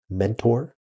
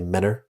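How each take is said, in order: First: The T after the N is clearly pronounced. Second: The T after the N is dropped. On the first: This is how the spelling suggests it is said. "it should be phonetically pronounced Mentor" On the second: This is how local people actually say it. "we all say Menor"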